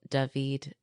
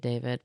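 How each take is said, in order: First: The name is said in a non-American accent. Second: The name is said in an American accent.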